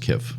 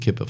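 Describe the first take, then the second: First: The name is said with no P sound. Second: The name is said with a P sound. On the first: "I bet the P is silent. I bet it's just Kif" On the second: "for fun, I'm going to say it's Kipf"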